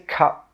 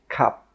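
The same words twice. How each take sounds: First: The final P is released with a puff of air. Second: The final P is held without releasing air. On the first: The speaker calls it wrong. "We don't say cup" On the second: The speaker calls it right. "we stop the air with that final P sound"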